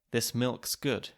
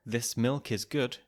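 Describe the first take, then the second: First: "milk's" with just an s after the k; reduced "is". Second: Said in the usual way. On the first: Shown as a demonstration. Narrator showing English clusters, "is" cut to s. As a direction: say "This milk's good" with the vowel of is gone. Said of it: "can be reduced to just an S". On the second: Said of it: "the word is can be reduced".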